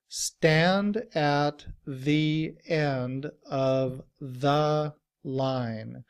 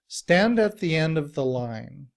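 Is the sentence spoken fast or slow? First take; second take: slow; fast. First: The sentence is spoken very slowly. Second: The sentence is spoken quickly. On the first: "Very slowly" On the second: "even when we're speaking quickly"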